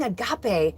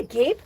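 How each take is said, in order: First: Agape said as a-GAH-pay, three syllables, Greek style; agape with open ah and ending pay; a-GAH-pay pronunciation. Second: Agape said as a-GAPE, like a mouth hanging open; agape rhymes with tape, stress on GAPE; a-GAPE pronunciation. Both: Shown as a demonstration. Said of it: "Am I supposed to be saying agape?".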